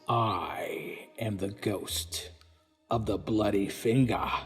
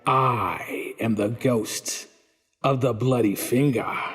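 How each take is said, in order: First: The line is said faintly and softly. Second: The line is said somewhat louder.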